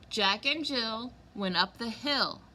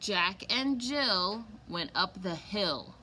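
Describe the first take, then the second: First: The line is read at a normal, quicker pace. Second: The line is read at a slower, drawn-out pace.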